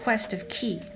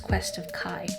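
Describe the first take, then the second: First: The last word rhymes with 'key'. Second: The last word rhymes with 'eye'. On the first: This is how the written name looks. The speaker calls it wrong. "it looks like Quest of Ki" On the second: This is the actual name. The speaker calls it right. "but I know it's Quest of Kai"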